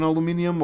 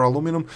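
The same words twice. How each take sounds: First: "aluminum" said with an extra i, al-oo-MIN-ee-um; "aluminum" ending in -ee-um; British-style pronunciation. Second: "aluminum" said without the extra i, a-LOO-mi-num; "aluminum" ending in plain -num; American-style pronunciation. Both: Real, not acted. Offers two variant pronunciations.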